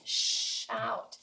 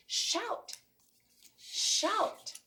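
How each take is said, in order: First: "Shout" with a held "sh"; long sh. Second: "Shout" with a long breathy "sh" and a high pitch; teacher demo of a hissed "Shout". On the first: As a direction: hold the "sh" of "Shout". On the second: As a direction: draw out the "sh" of "Shout". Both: Shown as a demonstration. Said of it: "A long breath of air".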